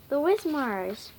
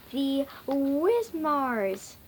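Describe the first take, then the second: First: Said in the usual way. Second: "the Wismars" drawn out slowly; slow unveiling. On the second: A narrator's reading. Skinny unveiling the club's new name, slowly. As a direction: stretch "the Wismars" into a slow announcement.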